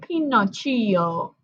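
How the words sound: The name is said with an Italian accent. "Pinocchio was Italian, and so ... I said Pinocchio"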